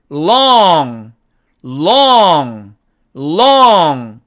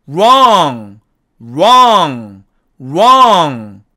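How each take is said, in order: First: Long with a loud clear l; long, tongue pressed to the gum ridge; long, never with an r. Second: Wrong with a curled, rounded r; wrong, tongue not touching; wrong, never with an l. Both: Shown as a demonstration. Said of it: "구분이 척척 잘 되도록".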